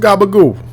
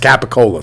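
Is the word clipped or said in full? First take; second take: clipped; full. First: The word is clipped, ending in a 'goo' sound. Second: The word is said in full, ending in 'cola'. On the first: The speaker calls it wrong. "Give me some gabagoo" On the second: The speaker calls it right. "It's Capicola, stupid"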